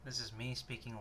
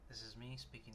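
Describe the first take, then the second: First: The voice is louder than normal speaking. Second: The voice is at normal speaking volume. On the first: "speaking louder" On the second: "speaking normally"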